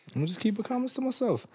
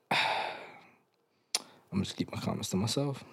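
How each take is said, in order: First: High-pitched, quick and soft; comic squeaky restraint. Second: Quiet, quick aside; subdued restraint. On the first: Pretend. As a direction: repeat it in a small, high comic voice. Comic repeat in a raised voice. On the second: Real, not acted. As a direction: say it softly to yourself, holding back. Holds back, repeats the same line.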